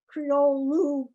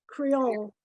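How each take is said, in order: First: The final vowel is pronounced. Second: The final vowel is dropped. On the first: This is how the spelling reads. "The language is spelled as if it was Creole" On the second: This is how people actually say it. "but people pronounce it Creole"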